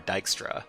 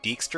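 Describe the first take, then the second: First: The first syllable sounds like 'die'. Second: The first syllable sounds like 'dee'. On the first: "or die?" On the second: "Is it D"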